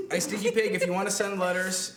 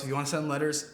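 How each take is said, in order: First: Called out a bit louder and higher to Stinky Pig; calling out to a viewer. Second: Said in the usual way. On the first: Real, not acted. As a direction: hail one viewer by name, brighter and louder. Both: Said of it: "and to anybody else".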